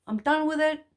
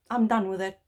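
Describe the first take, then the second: First: Higher, with firm resolve; emphatic repeat. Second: Said in the usual way. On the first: Real, not acted. Speaker tells viewers she's done with hiding, higher emphatic repeat. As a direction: say it again higher, meaning it.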